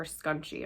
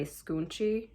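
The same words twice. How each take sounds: First: "Scunchi" said with a short u, like SKUN-chee; "Scunchi" with first vowel as in "sun"; alternative pronunciation. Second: "Scunchi" said with a long oo, like SKOON-chee; "Scunchi" with first vowel as in "moon"; alternative pronunciation. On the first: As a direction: say "Scunchi" as SKUN-chee, offering another guess. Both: Shown as a demonstration. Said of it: "not sure how you pronounce that".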